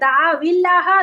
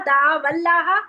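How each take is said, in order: First: The words are joined with an i vowel. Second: The words are joined with an a vowel.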